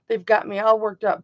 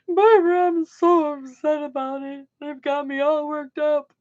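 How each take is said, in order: First: Said in the usual way. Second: Higher, louder put-on whine of distress; hammed-up woe-is-me whimper; mock whiny upset. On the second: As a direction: ham up being upset, like a pouty child.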